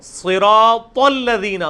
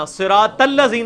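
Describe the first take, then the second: First: صراط الذین very slow, thick t leading into الذین; drawn-out صراط with full-mouthed s and t; correct heavy t. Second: صراط الذین with a thin t into الذین; light flat vowel after the t of صراط; mistaken light t. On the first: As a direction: stretch صراط, make its final t heavy. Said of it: "صراط الذین نہیں ہوگا". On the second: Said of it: "نہیں ہوگا". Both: Shown as a demonstration.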